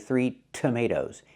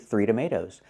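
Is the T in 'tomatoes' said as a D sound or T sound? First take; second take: T sound; D sound. First: The T in tomatoes is a clear T. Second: The T in tomatoes sounds like a quick D. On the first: The speaker calls it right. "use a real T" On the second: The speaker calls it wrong. "I cannot change it to a fast D"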